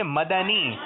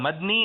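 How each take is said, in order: First: مدنی in three beats, ma-da-nee; correct pronunciation. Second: مدنی as two beats, mad-nee, d straight into n; wrong pronunciation. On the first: Host teaches the right pronunciation, ma-da-ni. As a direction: say مدنی with a clear a after the d, "ma-da-nee". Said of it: "بلکہ کیا ہے؟". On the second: Host shows contestants the rejected pronunciation, mad-ni. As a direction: say مدنی without the middle vowel, "mad-nee". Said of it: "مدنی نہیں ہے". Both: Shown as a demonstration.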